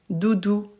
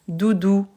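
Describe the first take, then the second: Both takes have the same delivery.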